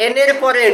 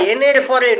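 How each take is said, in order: Both takes have the same delivery.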